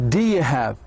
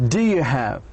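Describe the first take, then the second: Both takes have the same delivery.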